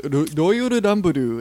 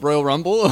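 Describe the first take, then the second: First: It is said with Japanese-style sounds and extra vowels. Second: It is said with plain English sounds. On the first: It is read out as written in the game's script. "think in a Japanese accent" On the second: The intended English phrase is recognized.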